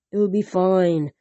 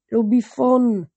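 First: "It'll be fine" said slowly, leaning on "fine"; slow down and fix it to "fine"; careful slow reread; slow correction. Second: Said in the usual way. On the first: A narrator's reading.

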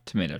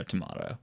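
First: "Tomato" said tuh-MAY-toh; low, soft "Tomato" with a long A. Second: "tomato" said tuh-MAH-toh; low, soft "tomato" with a broad A. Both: Shown as a demonstration. Saying one word two ways.

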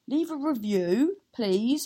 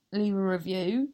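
First: Sing-song plea. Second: Said in the usual way. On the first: Real, not acted. Host pleading sweetly with listeners for reviews. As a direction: leave a review lilted up, a touch louder.

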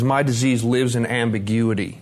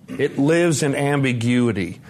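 First: Said in the usual way. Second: "lives in ambiguity" slow and weighted; emphatic repeat. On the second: Retold or imitated. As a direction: lean slowly on "lives" in "lives in ambiguity".

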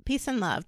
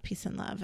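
First: Said in the usual way. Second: Whispered, much softer peace and love. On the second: Shown as a demonstration. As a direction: breathe it out as a whisper. Repeats sign-off, second whispered.

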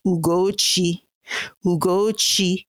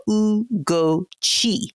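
First: Ugochi said as one flowing word, falling at the end; authentic pronunciation. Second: Ugochi in three slow, separated syllables, oo-go-chee; phonetic pronunciation. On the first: Guest showing listeners the real name, Ugochi in authentic flowing form. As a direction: say Ugochi smoothly, oo-go-chee run together. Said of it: "the authentic way is". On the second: Guest helping the audience say the name, Ugochi slowly sounded out. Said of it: "phonetically it's spelled O O H". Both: Shown as a demonstration.

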